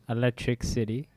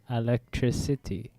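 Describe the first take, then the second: First: It is said as two words, electric city. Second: It is said as one word, electricity. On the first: The speaker calls it wrong. "you guys used to bag me about um saying Electric City" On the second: The speaker calls it right. "Very similar"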